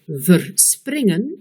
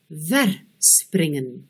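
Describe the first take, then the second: First: The stress is on the second syllable. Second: The stress is on the first syllable. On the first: "on met l'accent sur la deuxième syllabe" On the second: "on met l'accent sur la première syllabe"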